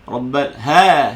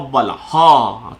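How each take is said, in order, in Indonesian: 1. Bunyi 'ha' di akhir diucapkan ringan dan nipis. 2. Bunyi 'ha' di akhir diucapkan berat dan tebal. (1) "ha tu nipis" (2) "ha tu jadi tebal. Tu salah"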